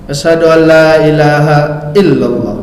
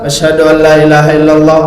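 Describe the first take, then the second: First: There is a short pause before the final word. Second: It runs on without a pause before the final word. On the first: The finger is raised exactly on the final word. The speaker calls it right. "dikasih jedah dia sedikit biar seiring dia sama" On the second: The finger raising does not match the final word. The speaker calls it wrong. "itu kadang tak pas dia"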